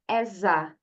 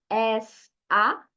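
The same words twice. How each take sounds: First: The final s runs straight into a. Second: The words are said separately, not joined. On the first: The speaker calls it right. "diga as a" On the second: The speaker calls it wrong. "em vez de você falar as a"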